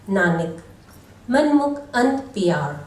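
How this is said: There is a pause after the first word. Nanak is addressed, and the mind-oriented are described. The speaker calls it right. "Right pause and actual meaning"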